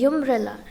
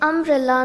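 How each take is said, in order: First: The word begins with a different, non-vowel sound. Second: The word begins with a plain vowel sound. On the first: The speaker calls it wrong. "not umbrella" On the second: The speaker calls it right. "We say umbrella"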